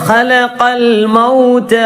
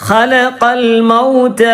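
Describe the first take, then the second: Both takes have the same delivery.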